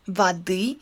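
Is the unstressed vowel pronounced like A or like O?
A. The unstressed vowel sounds like A. This is the standard language form. "in standard language"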